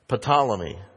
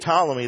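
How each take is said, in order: First: The word begins with an audible P sound. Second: The word begins with a T sound, no P. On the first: The speaker calls it wrong. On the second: The speaker calls it right.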